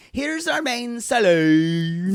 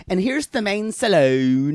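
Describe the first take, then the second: First: Slow, high Irish drawl. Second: Daisy impression. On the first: Retold or imitated. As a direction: stretch it out in a thick Irish drawl. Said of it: "Such an Irish drawl". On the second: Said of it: "I love it when she says".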